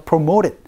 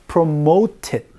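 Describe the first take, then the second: First: The middle T is softened into a quick flap. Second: The middle T is a crisp, clear stop.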